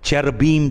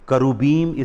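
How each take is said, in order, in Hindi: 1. यह शब्द अंग्रेज़ी तरीके से बोला जाता है। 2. यह शब्द हिब्रू तरीके से बोला जाता है। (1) "जिसे इंग्लिश में बोलते हैं" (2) "इसकी सही प्रोनाउंसिएशन है"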